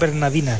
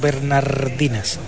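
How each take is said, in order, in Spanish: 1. La palabra se dice sin R antes de la D. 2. La palabra se dice con R antes de la D. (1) "me gusta recalcar que son bernardinas" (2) "no bernardinas"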